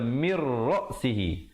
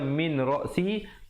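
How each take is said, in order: First: The n merges fully into a doubled r. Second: The n is pronounced before the r. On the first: This is how it is read here. "tapi di sini kita baca mir ra'sihi" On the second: This is the original form of the words. "Asalnya min ra'sihi"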